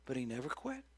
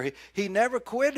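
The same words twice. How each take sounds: First: Quiet, reflective restatement. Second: Loud, high, punching quit; loud, emphatic proclamation; emphatic preaching. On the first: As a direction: let it sink in gently. Quiet repeat of the punchline. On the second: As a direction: proclaim it to the whole church. Emphatic then quiet repeat. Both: Acted.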